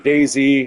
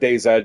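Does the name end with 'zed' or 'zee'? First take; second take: zee; zed. First: The name ends with the sound 'zee'. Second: The name ends with the sound 'zed'. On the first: "however you guys want to pronounce it" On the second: "I call it DayZ just because in Canada uh, we pronounce our, our, our Z as an uh, Z"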